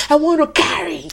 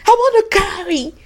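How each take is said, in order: First: Said in the usual way. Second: "I want to carry" lifted higher in pleading; pleading prayer pushed up high; higher plea. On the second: Pretend. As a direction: pitch "I want to carry" up, begging. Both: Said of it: "start right now and say".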